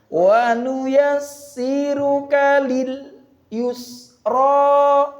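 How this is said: There is a slight break within the phrase. It is a learning aid to avoid joining sounds. "itu ada jedanya"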